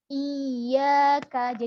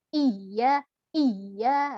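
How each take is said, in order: First: Iya with the y held and pressed; correct iyyaka. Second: Iya iya split with a gap; broken wrong way. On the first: Teacher showing the joined stressed form. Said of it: "Jadi dipegang hurufnya". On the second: Teacher showing the broken wrong version. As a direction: iya cut in two pieces. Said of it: "Kalau terputus itu gimana contohnya". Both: Shown as a demonstration.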